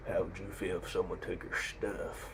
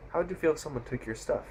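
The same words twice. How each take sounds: First: Slow, quiet menacing biker; cliché action-movie tough guy. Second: Higher, softer retold challenge; lightly voiced confronting biker at normal speed; biker's challenge. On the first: Retold or imitated. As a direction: draw it out softly like a movie heavy. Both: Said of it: "someone so cliche in an action movie".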